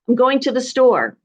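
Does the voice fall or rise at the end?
falls. The voice falls at the end, like a statement.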